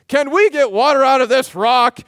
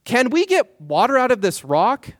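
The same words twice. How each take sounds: First: Loud, high rallying call; rally cry. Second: Raised, pointed rhetorical ask; rhetorical challenge. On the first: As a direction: rouse the crowd to cheer. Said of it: "giving off a rally cry". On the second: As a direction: Moses challenging the people rhetorically. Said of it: "rhetorical question". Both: Retold or imitated.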